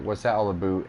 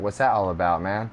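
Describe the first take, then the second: First: Put-on "about" said as "aboot" in a Canadian accent; lightly voiced Canadian accent; mock Canadian accent. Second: Laid-back California "about, man"; lightly voiced California accent. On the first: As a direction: imitate a Canadian saying "aboot". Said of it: "When someone from Canada hears someone from California". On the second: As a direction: imitate a Californian, plain open "about". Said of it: "when someone from California hears someone from Canada".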